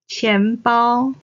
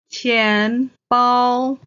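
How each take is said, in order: First: Said in the usual way. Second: Stretched teaching 钱包, rising 钱, level 包; second, first tone. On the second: Shown as a demonstration. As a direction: say 钱包 syllable by syllable, rising then level. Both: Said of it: "钱 is the second tone".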